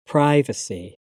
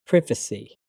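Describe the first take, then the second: First: "privacy" with a long "i": PRY-va-see; American pronunciation. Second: "privacy" with a short "i": PRIV-a-see; British pronunciation. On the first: Teacher trying the American form, American pronunciation. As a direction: say "privacy" with a first vowel like "eye". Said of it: "my American pronunciation". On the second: Teacher reading the British form of each pair, British pronunciation. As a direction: say "privacy" with a short first vowel, as in "privy". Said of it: "I'm a British English native speaker". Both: Shown as a demonstration.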